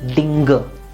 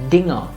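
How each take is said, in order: First: A hard g is sounded after the ng. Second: The ng is one sound without g. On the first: The speaker calls it wrong. "It is not dinger" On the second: The speaker calls it right. "but dinger"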